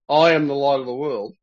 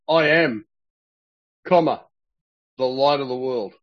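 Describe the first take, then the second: First: The phrase runs on without a pause. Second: A pause follows the words "I am". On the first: The speaker calls it wrong. "He doesn't say" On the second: The speaker calls it right. "He says, I am, comma"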